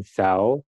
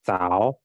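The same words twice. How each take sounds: First: Zhao read with an Indonesian Z; wrong soft Z reading. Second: Zhao drawn out, starting with a C-like sound; Z read like C. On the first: Teacher showing learners the mistaken reading, zhao with an Indonesian Z. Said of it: "Di sini bacanya bukan zhao". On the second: Teacher giving learners the correct reading, zhao slow with C-like onset. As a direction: say zhao slowly with C for its Z. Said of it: "dibaca zhao". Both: Shown as a demonstration.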